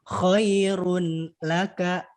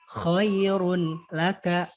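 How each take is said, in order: The two takes are said the same way.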